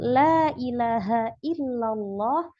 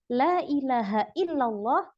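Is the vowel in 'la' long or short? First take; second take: long; short. First: The vowel in 'la' is held long. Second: The vowel in 'la' is cut short. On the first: There is no god but Allah. The speaker calls it right. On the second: The meaning is badly changed. The speaker calls it wrong.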